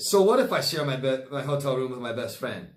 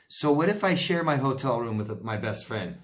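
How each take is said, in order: First: It is said imitating how the ex says it. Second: It is said in the speaker's plain voice.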